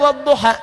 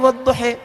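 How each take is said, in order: First: The final vowel is an open 'a'. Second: The final vowel is tilted toward 'e'. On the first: "Anda wadduha" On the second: "dia wadduhe"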